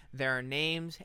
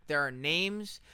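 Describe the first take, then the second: No difference in how they are said.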